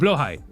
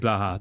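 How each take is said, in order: First: The word ends with a 'high' sound. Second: The word ends with a 'ha' sound. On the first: This is the proper pronunciation. "So blowhigh is how you pronounce that" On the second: This is how the speaker personally says it. "but I say blaha"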